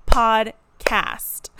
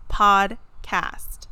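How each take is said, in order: First: "Podcast" louder, each syllable clapped out for the back row. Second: "Podcast" said louder, two clear beats; clapped syllables. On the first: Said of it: "let me clap it out for those of you in the back". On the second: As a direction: hit both beats of Podcast. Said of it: "let me clap it out". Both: Shown as a demonstration.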